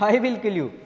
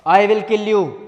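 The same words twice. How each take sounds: First: It is said in a joking, playful way. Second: It is said as a serious threat.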